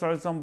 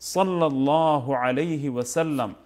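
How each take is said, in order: First: The phrase is slurred down to one word. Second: Every word of the phrase is said clearly. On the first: The speaker calls it wrong. "Incomplete উচ্চারণ করেন অস্পষ্ট উচ্চারণ করেন" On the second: The speaker calls it right. "এইভাবে অন্তত বলবো"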